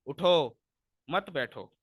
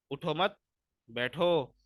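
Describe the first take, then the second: First: "उठो" as a firm command, pause, "मत बैठो"; pause after उठो. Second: "उठो, मत" in one go, stop, then "बैठो"; pause after मत. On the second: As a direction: break after "मत", before a separate "बैठो". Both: Shown as a demonstration. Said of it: "वक्फ के वजह से कितना फ़र्क".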